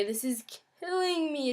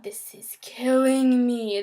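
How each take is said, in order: First: Said in the usual way. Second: Slow, strained whisper of distress; anguished whisper. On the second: Real, not acted. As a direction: push the words out in a desperate whisper. Overwhelming anxiety attack.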